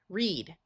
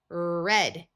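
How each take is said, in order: First: The vowel is a long E sound. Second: The vowel is a short E sound. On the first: It is the present tense. "The words in this column will have a long E sound" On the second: It is the past tense. "Here we have the past tense"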